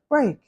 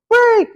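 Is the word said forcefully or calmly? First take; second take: calmly; forcefully. First: It is said softly and calmly. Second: It is said hard and forcefully.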